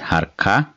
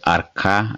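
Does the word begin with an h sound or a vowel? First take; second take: h sound; vowel. First: The word begins with an h sound. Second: The word begins without an h sound. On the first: "but normally it is Harka" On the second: "sometimes called Arka as well without H"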